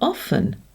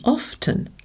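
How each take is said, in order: First: The word is said without a T sound. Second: The word is said with a T sound. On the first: This is the usual modern pronunciation. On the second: This is the older pronunciation.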